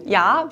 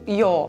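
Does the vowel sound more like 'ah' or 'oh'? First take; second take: ah; oh. First: The vowel is an open 'ah' sound. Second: The vowel is a darker, 'oh'-like sound. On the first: "der Vokal A wird zu einem O" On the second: "der Vokal A wird zu einem O"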